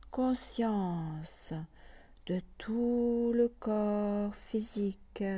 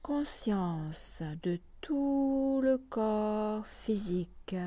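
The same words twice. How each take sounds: The two takes are said the same way.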